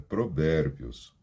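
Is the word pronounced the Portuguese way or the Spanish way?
Spanish. It is pronounced with Spanish sounds. The speaker calls it right. "é provérbios"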